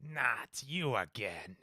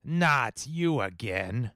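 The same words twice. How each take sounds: First: Slow, soft skeleton voice; clattering jaw cackling skull. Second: Slow robotic shifted voice; frequency-shifted voice. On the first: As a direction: drag it out like a skeleton. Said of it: "the skeleton voice". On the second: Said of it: "maybe a frequency shifter". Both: Acted.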